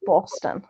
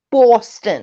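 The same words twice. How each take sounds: First: Said in the usual way. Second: Boston accent, punched "Boston". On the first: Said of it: "They're all saying it now is Babs from". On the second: Shown as a demonstration. Trying out where Babs is from, mock Boston accent. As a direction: say "Boston" louder with a put-on Boston accent. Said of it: "where her accent is from".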